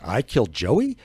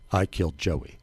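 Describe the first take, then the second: First: It is said as a shocked, disbelieving exclamation. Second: It is said as a flat, plain statement.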